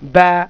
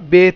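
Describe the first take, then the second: First: The letter name ends in an 'a' vowel. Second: The letter name ends in an 'e' vowel. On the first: The speaker calls it right. "মারুফ কি?" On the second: The speaker calls it wrong. "এটাকে মাজহুল বলা হয়, মানে অসম্পূর্ণ উচ্চারণ বা ভুল উচ্চারণ"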